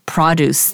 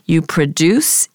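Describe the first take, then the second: First: The stress is on the first syllable. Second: The stress is on the second syllable. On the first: It is the noun, meaning fresh fruit and vegetables. "and then this is produce, the noun" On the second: It is the verb, meaning to make something. "please note the difference in pronunciation. You produce"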